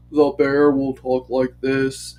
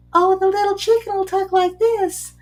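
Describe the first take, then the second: First: Lower, a lightly voiced bear; a hint of a big slow bear, pitched down; gentle storytime bear, a touch lower. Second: Much higher, a touch louder, chirpy chicken; high storytime voice for a little chicken. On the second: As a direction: squeak it out like a tiny chicken. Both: Shown as a demonstration. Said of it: "change the intonation if I'm talking about certain characters".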